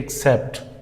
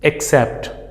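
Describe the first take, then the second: First: The double C is said as KS. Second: The double C is said as KS.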